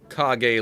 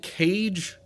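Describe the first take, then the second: First: It is said as two syllables, kah-geh. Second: It sounds like the English word cage. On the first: "like the end of Hokage from Naruto" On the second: "is it I'm still Cage?"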